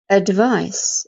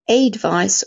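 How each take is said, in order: First: The first vowel is a weak schwa. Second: The first vowel is a full vowel. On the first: The speaker calls it right. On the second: The speaker calls it wrong.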